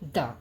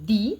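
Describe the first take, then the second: First: The word ends in a short 'uh' vowel. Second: The word ends in a long 'ee' vowel. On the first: The next word begins with a consonant sound. "যে ওয়ার্ডগুলো consonant sound দিয়ে শুরু হবে তার আগে আমরা উচ্চারণ করব দ্য" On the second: The next word begins with a vowel sound. "যে ওয়ার্ডটা ভাওয়েল সাউন্ড দিয়ে শুরু হবে তার আগে আমার আমরা উচ্চারণ করব দি"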